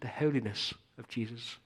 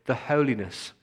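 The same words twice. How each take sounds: First: A light mock English accent on "the holiness of Jesus"; a hint of an English accent, mocking the religious crowd. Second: Said in the usual way. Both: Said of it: "in their best English accent".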